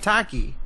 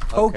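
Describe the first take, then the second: First: The first vowel is an open 'ah' sound. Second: The first vowel is an 'oh' sound. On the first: The speaker calls it wrong. "You're saying Taki" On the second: The speaker calls it right. "a hard O sound"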